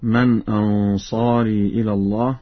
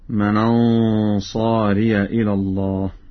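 First: Ansari ends in a plain long i vowel. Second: Ansari ends with ya carrying an a vowel.

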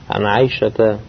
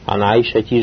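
First: The name ends in an 'a' vowel. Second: The name ends in an 'i' vowel. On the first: The speaker calls it right. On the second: The speaker calls it wrong.

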